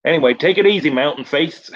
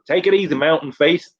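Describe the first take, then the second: First: Higher, mock-casual stoner goodbye; a lightly voiced dazed stuntman; stoned Dave's farewell. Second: Higher, breezy stoner sign-off; a lightly voiced spaced-out buddy; stoned Dave's farewell. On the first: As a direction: toss off a breezy, high farewell. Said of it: "he goes". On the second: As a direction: repeat the farewell, lightly and high. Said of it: "he just goes".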